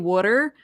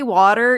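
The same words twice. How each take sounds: First: It is said in a Delco Philadelphia accent. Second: It is said in a general American accent. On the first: "you say" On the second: "you don't say"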